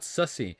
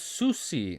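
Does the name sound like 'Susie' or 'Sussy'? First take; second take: Sussy; Susie. First: The name is said like 'Sussy'. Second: The name is said like 'Susie'. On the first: The speaker calls it wrong. "not Sussy" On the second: The speaker calls it right. "so it's Susie"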